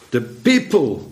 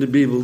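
First: The word begins with a P sound. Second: The word begins with a B sound. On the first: The intended word is said as meant. The speaker calls it right. "De people bedoelde hij" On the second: A speaker who cannot pronounce P said it. The speaker calls it wrong. "Die gids die ik had in Jordanië, die had het maar over de Bijbel"

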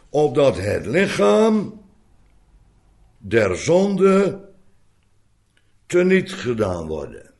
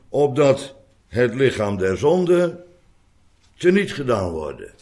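First: The phrase is broken up by pauses. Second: The phrase runs on without pauses. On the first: The body is made powerless with respect to sin. The speaker calls it right. "En de pauzes las ik in, opdat u het niet verkeerd zou lezen" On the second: The sinful body itself is destroyed. The speaker calls it wrong. "Opdat u niet zou lezen"

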